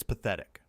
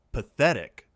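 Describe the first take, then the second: First: Said in the usual way. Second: Loud, outraged echo; affronted, raised-voice exclamation; voice shooting up. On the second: A narrator's reading. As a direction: echo it in indignant disbelief. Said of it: "Denise's voice went up an octave".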